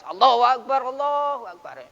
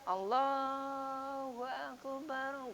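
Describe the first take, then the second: First: Loud, firm call to prayer. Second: Very slow, soft, drawn-out Allahu Akbar; gentle. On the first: Teacher demonstrating a firm, loud adhan. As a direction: call it out strongly and firmly. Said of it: "Suara adanya tegas". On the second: Teacher demonstrating a gentle, soft adhan. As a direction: let it flow softly and slowly. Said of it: "Suaranya lembat lembut ya". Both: Shown as a demonstration.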